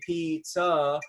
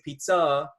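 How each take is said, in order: First: Both syllables get equal stress. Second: The stress is on the second syllable. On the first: "you don't just say pizza and it's equal" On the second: "where the second syllable has more emphasis"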